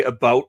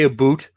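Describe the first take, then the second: First: "about" with a standard ow vowel; careful "about". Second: "a boot" said Canadian, about as boot. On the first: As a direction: say "about" properly, ow not oo. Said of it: "I try very hard to say". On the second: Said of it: "I notice I do say". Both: Shown as a demonstration.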